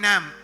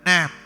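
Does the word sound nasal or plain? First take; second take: plain; nasal. First: The word is said plainly, not through the nose. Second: The word is said nasally, with the nose held. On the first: The speaker calls it wrong. "ഞാൻ പറഞ്ഞു നോക്കി നാം, പക്ഷെ ഏക്കുന്നില്ല" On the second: The speaker calls it right. "മൂക്കിലോട്ട് പിടിച്ചു... ഇതാണ് ആ പ്രൊനൗൺസിയേഷൻ"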